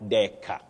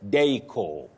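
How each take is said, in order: First: The word ends without a long O vowel. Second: The word ends in a long O vowel. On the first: The speaker calls it wrong. "not deca" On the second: The speaker calls it right. "the R is silent, then it has the long sound O"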